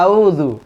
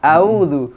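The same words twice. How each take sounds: The two takes are said the same way.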